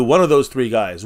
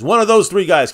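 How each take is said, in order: First: Said in the usual way. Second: Higher and louder, hitting those; emphatic repeat. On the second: Real, not acted. Streamer insisting to chat on his three picks, emphatic and louder. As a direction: drive it home the second time.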